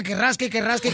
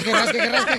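First: Said in the usual way. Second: Punchline laughing through it; giggling punchline repeat. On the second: Acted. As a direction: crack up while repeating it.

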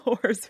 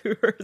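First: Said in the usual way. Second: "hoors" said with a long oo vowel; dialect pronunciation. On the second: Shown as a demonstration. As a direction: say "hoors" to rhyme with "moors".

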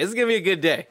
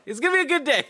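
First: A lightly put-on cheery voice; upbeat self-pep talk. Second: Much higher, sing-song cheery voice; sing-song self-pep talk. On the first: Producer retelling his own upbeat pep talk, lightly put-on. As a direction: cheer yourself up. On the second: Retold or imitated. Producer retelling his pep talk again, higher and giddy. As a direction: lift it up into a giddy chirp. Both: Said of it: "So I was like".

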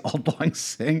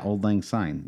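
First: Put-on Old Lang Syne drawn out slowly as "old long sing"; mock mispronunciation. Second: Said in the usual way. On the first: Host replaying own slip with a laugh, slow mispronounced "old long sing". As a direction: say Syne as "sing", stretched and mocking. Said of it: "what did I say?". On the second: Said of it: "Yeah, what did I say?".

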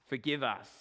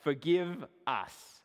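First: Said in the usual way. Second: Forgive us stretched out slowly, weighty; solemn, slowed heading "Forgive us"; slow drawn-out heading. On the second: Shown as a demonstration. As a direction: announce "Forgive us" slowly like a title. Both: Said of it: "part two".

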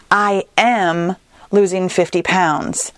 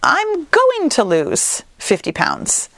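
First: Firm, slow present-tense statement; declarative present tense. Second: Slow, tentative future-tense goal; wishful future tense. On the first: Host demoing the confident present-tense goal, firmly. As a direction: state it as if it is already happening. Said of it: "speak basically as if we already have the goal". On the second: Podcast host demoing how a vague goal sounds, tentatively. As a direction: say it as a far-off someday plan. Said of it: "if you're saying things like". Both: Shown as a demonstration.

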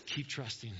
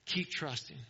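First: Soft urging. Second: Said in the usual way. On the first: Acted. Soft repeated exhortation.

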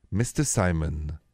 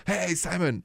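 First: Low, slow and measured summons; deliberate, low-pitched parental reprimand without yelling; slow disciplining dad. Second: High-pitched, mild mock call; half-hearted yell, pitched up. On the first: Retold or imitated. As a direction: imitate a dad calmly disciplining, very slowly. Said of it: "start to talk very slowly". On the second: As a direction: imitate a parent yelling, without the volume. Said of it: "The less we yell".

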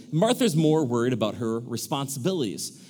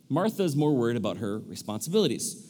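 No difference in how they are said.

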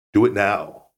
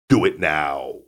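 First: Said in the usual way. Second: Put-on a lower take on the Austrian accent; "Do it now" in a calm Arnold voice; understated Austrian action-hero accent; Arnold impression. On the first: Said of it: "plain take after the impression". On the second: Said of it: "That's a good Arnold impersonation".

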